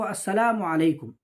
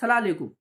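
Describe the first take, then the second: First: Every syllable is pronounced fully and clearly. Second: The syllables are clipped and run together. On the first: The speaker calls it right. "सलाम का सही तरीक़ा है" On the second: The speaker calls it wrong. "अल्फाज की अदायगी सही तरीके से नहीं करते हैं"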